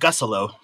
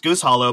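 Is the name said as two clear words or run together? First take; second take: run together; two words. First: The name is run together into one reduced word. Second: The name is said as two separate, full words. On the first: The speaker calls it right. "but it's Gussolo" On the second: The speaker calls it wrong. "you would think it's pronounced Goose Hollow"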